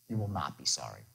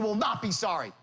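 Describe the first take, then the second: First: The tone is calm and reasonable. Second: The tone is pushy and pressuring. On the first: The request is fair and easy to accept. The speaker calls it right. "you're going to do it in the reasonable man tone" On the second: The listener feels pressured and wants to leave. The speaker calls it wrong. "Not like"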